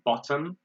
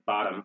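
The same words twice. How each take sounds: First: It is said with a British accent. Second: It is said with an American accent. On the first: "They say" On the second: "We say"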